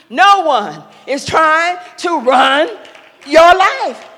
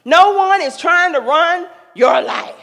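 First: Slow, deliberate, "your life" hit louder; repeated with emphasis. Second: Said in the usual way. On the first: Shown as a demonstration. To young adults, repeating it with slow weighty emphasis. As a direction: repeat it slowly, pressing each word. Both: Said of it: "I repeat".

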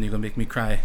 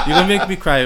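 First: Said in the usual way. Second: Louder and higher, laughing through tears; choked-up laughing. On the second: Real, not acted. Guest laughing and moved after the host's praise. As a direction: say it half laughing, half welling up.

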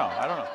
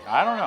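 First: Said in the usual way. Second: Playful, higher and louder mock doubt; teasing. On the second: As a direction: toss it off as a joke, voice rising. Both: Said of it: "No, I'm just teasing".

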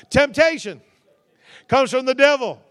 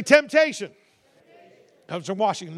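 First: Louder, higher call-and-response; corrected line, called out. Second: Said in the usual way. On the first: Shown as a demonstration. Preacher corrects the congregation, calling the line out louder. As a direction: belt out the correction. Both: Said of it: "No, not Washington".

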